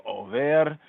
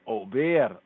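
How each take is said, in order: First: "Over" with a clear v, modern Hebrew way. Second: "Ober" with a b, the ancient pointing; ancient Hebrew Ober. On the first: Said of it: "modern Hebrew Over". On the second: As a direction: say "Ober" with a firm b instead of v. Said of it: "ancient point Ober". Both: Shown as a demonstration.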